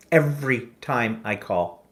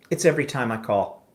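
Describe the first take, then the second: First: "Every time I call" drawn out word by word; slow emphatic repeat. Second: Said in the usual way. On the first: Retold or imitated. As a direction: spell out "Every time I call" slowly and pointedly.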